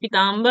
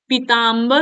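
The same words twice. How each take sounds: First: The first vowel is short. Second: The first vowel is long. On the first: The speaker calls it wrong. "यहाँ छोटी की नहीं" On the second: The speaker calls it right. "बड़ी की मात्रा लगती है"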